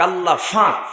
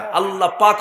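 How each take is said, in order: First: It is said in Noakhali dialect with f. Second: It is said in standard Bangla with p.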